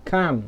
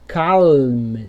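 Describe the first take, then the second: First: Calm said as "cam", no L; silent L. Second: Calm with a long, audible L before M; wrong sounded L. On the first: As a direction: drop the L from calm. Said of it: "você vai falar". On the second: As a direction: stretch calm, voicing the L. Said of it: "você não vai falar assim". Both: Shown as a demonstration.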